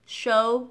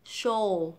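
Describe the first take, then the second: First: Loud "show" ending on a rounded O, no L; wrong way. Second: "show" ending in a dark L, like "shoal"; right way. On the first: Teacher demonstrating the mistake, loud L-less "show". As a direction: say "show" with no tongue lift. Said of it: "cách mà mình hay đọc sai này". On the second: Teacher demonstrating correct way, "show" with dark L. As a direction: pull the tongue up to close "show" on L. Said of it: "cách mà đọc đúng này". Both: Shown as a demonstration.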